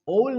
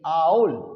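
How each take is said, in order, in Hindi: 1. स्वर एक सादा 'oh' ध्वनि है। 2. स्वर एक फिसलती हुई 'ow' ध्वनि है। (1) "ओल नहीं है"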